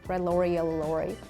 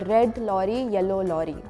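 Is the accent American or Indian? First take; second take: American; Indian. First: It is said in an American English accent. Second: It is said in an Indian English accent. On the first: "the way I would say is red lorry, yellow lorry. Because I studied American accent" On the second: "Some of the Indians would say lorry. Like the R is like R, not like R. And they would say red lorry, yellow lorry, like that"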